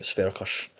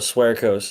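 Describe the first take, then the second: First: The name is pronounced with Polish sounds. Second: The name is pronounced with English sounds. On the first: "the pronunciation for Polish" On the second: "how you'd say it, just for like an anglicized form"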